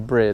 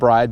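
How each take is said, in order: First: The vowel sounds like the i in bid. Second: The vowel sounds like the word eye. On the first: This is how the name is really said. The speaker calls it right. "but it's actually Brid" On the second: This is how most people say it. The speaker calls it wrong. "Everybody pronounce it Bride, pronounces it Bride"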